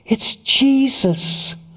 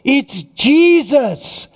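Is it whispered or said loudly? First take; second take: whispered; loudly. First: It is whispered softly. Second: It is said loudly.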